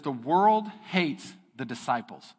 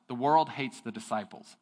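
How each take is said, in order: First: "The world hates the disciples" read slowly, "world" stressed; slow title reading. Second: Said in the usual way. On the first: Shown as a demonstration. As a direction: announce it like a heading. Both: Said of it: "the title of that area says".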